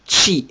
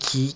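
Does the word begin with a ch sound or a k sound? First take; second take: ch sound; k sound. First: The word begins with a forceful ch sound. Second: The word begins with a hard k sound. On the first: The speaker calls it right. "il va se dire chi... mais on insiste" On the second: The speaker calls it wrong. "c'est pas qui"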